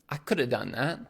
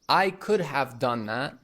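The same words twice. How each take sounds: First: Could have is blended into coulda. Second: Could have is said fully, both words clear. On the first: "could have becomes coulda. / we'll say" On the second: "So instead of saying"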